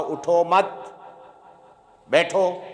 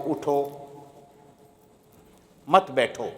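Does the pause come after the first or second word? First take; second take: second; first. First: The pause comes after the second word. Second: The pause comes after the first word.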